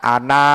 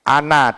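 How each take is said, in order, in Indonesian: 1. Vokal akhir dibaca panjang. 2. Vokal akhir dibaca pendek. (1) "Mestinya bacaannya ana ya" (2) "dibaca pendek"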